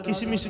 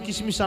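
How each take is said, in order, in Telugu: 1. 'ki'తో మొదలై అచ్చులు కలుస్తుంది. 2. 'ki'తో మొదలై అచ్చులు కలుస్తుంది.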